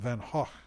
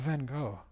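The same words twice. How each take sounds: First: The name is said the Dutch way. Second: The name is said the usual English way.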